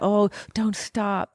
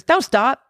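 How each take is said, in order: First: It is said in a sensual, pleased tone. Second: It is said in a harsh, flat tone.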